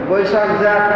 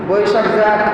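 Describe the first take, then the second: The two takes are said the same way.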